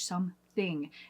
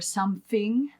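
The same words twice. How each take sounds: First: The middle sound is a clear th. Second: The middle sound is s or f, not th. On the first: The speaker calls it right. "make sure that you have that T H" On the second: The speaker calls it wrong. "Instead of something"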